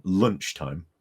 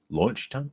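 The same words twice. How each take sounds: First: Said in the usual way. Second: "Lunchtime" with an off first vowel, questioning rise; slipped pronunciation. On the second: Real, not acted. Tripping over a word while talking to viewers, puzzled mispronunciation. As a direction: query your own garbled "Lunchtime", higher pitched. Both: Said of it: "Talking is so difficult".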